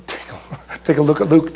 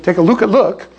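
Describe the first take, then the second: First: Giggling through the tongue twister; laughing stumble. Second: Said in the usual way. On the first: Real, not acted. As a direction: laugh while tripping on the words.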